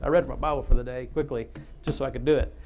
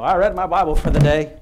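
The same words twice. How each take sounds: First: Said in the usual way. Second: Dismissive quick reader. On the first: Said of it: "now I lost my place". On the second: Retold or imitated. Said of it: "Don't just read through it, go".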